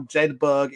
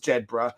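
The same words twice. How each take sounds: First: The name is said the American way. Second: The name is said the local Scottish way. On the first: This is how the military community now says it. "now Jedburgh in terms of how it's talked about within the U S" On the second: This is how it is said where the name started. "grew up ten miles away from it is Jedburgh. That that's where it started off"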